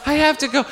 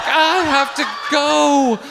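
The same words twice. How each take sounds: First: High-pitched but quicker comic plea; acted urge to escape; desperate insistence. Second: High, drawn-out wail of desperation; comic plea to escape; desperate wail. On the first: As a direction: insist on leaving, pitched high without stretching it. Repeats desperation to leave, less drawn-out. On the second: Retold or imitated. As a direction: stretch GO out slow and high, hammed-up. Acting desperation to leave.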